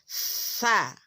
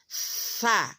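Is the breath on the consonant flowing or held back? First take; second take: flowing; flowing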